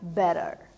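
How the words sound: The t sounds like a quick r. "O sotaque americano, ele tem um som mais aberto... o T ele soa como R"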